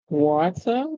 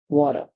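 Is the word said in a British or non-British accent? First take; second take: British; non-British. First: The word is said in a British accent. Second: The word is said in a non-British accent.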